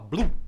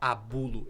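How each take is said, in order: First: The word is clipped and slurred together. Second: The word is said in full, clearly. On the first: This is how an old man mumbled it. "ele falava blu" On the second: This is the usual form of the word. "Ele não falava abulo"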